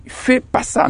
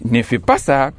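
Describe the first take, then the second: First: Higher, breathy mock of «fais pas ça»; wrong form quoted. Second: «ne» clearly pronounced in «ne fais pas ça»; correct form. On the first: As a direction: flick off «fais pas ça» as the lazy version. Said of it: "quand on dit". (forme fautive, aiguë et soufflée) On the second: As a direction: set the «ne» firmly before «fais». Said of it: "non, non, on dit". (en marquant bien le «ne») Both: Shown as a demonstration.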